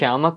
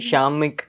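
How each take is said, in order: First: The second syllable has an 'a' vowel. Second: The second syllable has an 'i' vowel. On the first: The speaker calls it right. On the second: The speaker calls it wrong.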